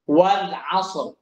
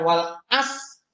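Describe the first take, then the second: First: The final r sound is clearly pronounced. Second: The final r sound is dropped entirely. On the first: The speaker calls it right. "Ro-nya harus kena terus" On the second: The speaker calls it wrong. "Ro-nya nggak kena itu. Nah, itu salah ya"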